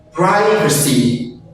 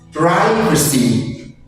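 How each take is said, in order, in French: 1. Il est prononcé avec un accent américain. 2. Il est prononcé avec un accent américain.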